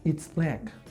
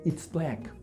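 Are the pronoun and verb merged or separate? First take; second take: merged; merged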